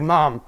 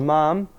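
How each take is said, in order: First: It is said in a plain, clear way. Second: It is said in a questioning way. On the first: The speaker is simply calling her. "it makes it clear" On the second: The speaker has a question. "she gets I have a question"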